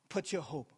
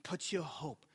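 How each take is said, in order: Both takes have the same delivery.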